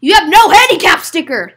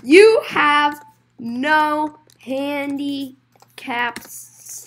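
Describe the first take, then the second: First: Loud, higher outburst; loud accusation. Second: Very slow, drawn-out, broken-up delivery; slow word by word. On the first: Accusing a customer over the handicap sticker, loudly. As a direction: call it out in one loud run. Same line to rule-breaking customer. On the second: Telling a customer about the missing sticker, slowly. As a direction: draw out each word with gaps. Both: Acted.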